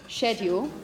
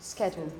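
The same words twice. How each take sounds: First: The word begins with an sh sound. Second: The word begins with an sk sound. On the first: The speaker is British. "if you're British, you would say probably sh- sh- schedule, schedule, the sh sound" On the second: The speaker is American. "if you're an American, you would say ske, schedule"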